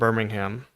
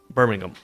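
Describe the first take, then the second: First: Birmingham is said with an American accent. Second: Birmingham is said with a British accent. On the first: The visitors' own way of saying the city's name. The speaker calls it wrong. "we're from Birmingham" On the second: The local man's correction of the city's name. The speaker calls it right. "his contemptuous British accent"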